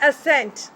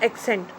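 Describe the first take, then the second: First: "assent" with a plain s, not "accent"; correct assent. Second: "accent" said AK-sent with a hard k before the s; "accent" with a hard k, the wrong way. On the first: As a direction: say "assent" with a clean s in the middle, uh-SENT. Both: Shown as a demonstration. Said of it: "this is not accent".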